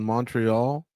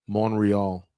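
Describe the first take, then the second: First: The T sound in the middle is pronounced. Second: The T sound in the middle is left out.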